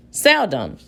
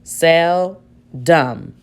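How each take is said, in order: First: "Seldom" as one word, falling at the end; "Seldom" said whole, stress on "sel"; blended schwa. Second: "Seldom" split as "sel... dum"; two slow, separate syllables in "Seldom", second as "dum"; sounding out with schwa. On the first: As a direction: blend "Seldom" smoothly, second vowel reduced to "uh". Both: Shown as a demonstration. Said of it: "let's try the schwa".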